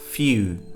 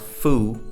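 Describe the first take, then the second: First: There is a y sound before the vowel. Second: There is no y sound before the vowel. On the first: The speaker calls it right. "it's few" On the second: The speaker calls it wrong. "F E W is not foo"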